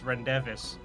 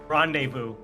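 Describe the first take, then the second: First: The word ends with a 'vis' sound. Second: The word ends with a 'voo' sound. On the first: The speaker calls it wrong. "For a long time, I pronounced it as rendevis" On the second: The speaker calls it right. "Mine was uh, rendezvous"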